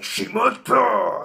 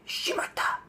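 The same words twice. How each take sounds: First: It is said loudly and aggressively. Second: It is said quietly, almost whispered. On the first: The speaker calls it wrong. "You don't have to say shimata because it doesn't have the same aggressivity" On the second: The speaker calls it right. "really quiet, really low key ... whisper this"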